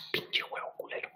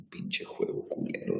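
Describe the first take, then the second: First: Breathy whispered curse at the game. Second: Said in the usual way. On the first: Real, not acted. Cursing the game in a whisper. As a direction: hiss it under your breath.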